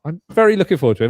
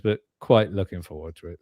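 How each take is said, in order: First: "very looking forward" pitched high, loud and quick; emphatic keenness. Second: "quite looking forward" low and measured; tempered keenness. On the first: Host on the next film, "very" said emphatically. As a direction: rush it out brightly with a high, strong "very". Overclaims, then tempers to quite. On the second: Host on the next film, "quite" said with restraint. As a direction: drop the pitch, easing back on "quite". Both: Real, not acted.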